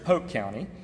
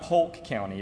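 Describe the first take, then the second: First: Polk is said the way locals say it. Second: Polk is said the way outsiders say it. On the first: The speaker calls it right. "If you're from there, it's Polk County" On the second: The speaker calls it wrong. "It's not Polk County"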